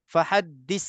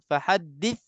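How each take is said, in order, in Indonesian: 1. Konsonan terakhirnya bunyi 's' yang mendesis. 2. Konsonan terakhirnya bunyi 'th' yang lembut.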